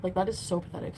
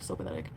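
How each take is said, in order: First: Said in the usual way. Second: Muttered aside. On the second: Real, not acted. Repeated much lower, softer.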